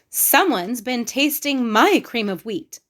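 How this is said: It is said in a middle-sized voice.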